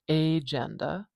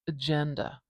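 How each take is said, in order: First: The first vowel is full and clearly pronounced. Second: The first vowel is very short and weak. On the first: The speaker calls it wrong. "or agenda" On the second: The speaker calls it right. "It's almost swallowed"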